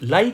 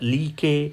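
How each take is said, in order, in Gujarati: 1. તે એક અક્ષરમાં બોલાય છે, like. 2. તે બે અક્ષરમાં બોલાય છે, lee-kay. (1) "આનો ઉચ્ચાર થાય છે લાઈક" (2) "આને લીકે નહીં વાંચતા"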